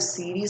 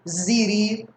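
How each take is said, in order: First: The word begins with a hissing s sound. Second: The word begins with a buzzing z sound. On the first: The speaker calls it right. "Vai ler com som de S" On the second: The speaker calls it wrong. "Ninguém vai ler assim"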